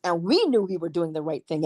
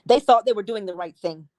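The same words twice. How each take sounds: First: WE set apart from "they"; stress on WE. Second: THEY set apart from "we"; stress on THEY. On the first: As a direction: lean on "we" to set us against them. Contrasting our side with theirs. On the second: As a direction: lean on "They" to set them against us. Contrasting their side with ours. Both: Acted.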